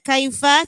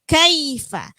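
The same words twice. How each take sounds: First: The first vowel is slanted toward an e sound. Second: The first vowel is kept straight and open. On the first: The speaker calls it wrong. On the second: The speaker calls it right.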